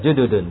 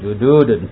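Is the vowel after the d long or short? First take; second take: short; long. First: The vowel after the d is short. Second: The vowel after the d is long. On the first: The speaker calls it right. "Dulnya apa dalnya enggak panjang" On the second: The speaker calls it wrong. "bukan jududun"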